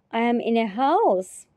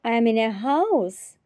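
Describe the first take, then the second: No difference in how they are said.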